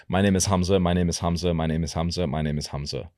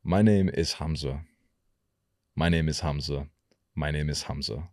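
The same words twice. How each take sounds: First: Quick, run-on everyday delivery; normal fast pace. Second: Unhurried, measured delivery with gaps; slightly slower. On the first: Coach showing his usual speed, fast. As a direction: rattle it off quickly. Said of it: "I'm quite fast". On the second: Coach demonstrating a change of pace, slower. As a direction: ease the pace down a little. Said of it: "ten to twenty percent slower". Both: Shown as a demonstration.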